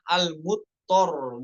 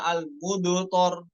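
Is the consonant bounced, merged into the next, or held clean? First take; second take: merged; bounced. First: The consonant is merged into the following one. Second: The consonant is released with an added bounce. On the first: "bukan diidghamkan, bukan al-mudhor" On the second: "yang dikolkolahkan contohnya al-mudhor kurang tepat ya"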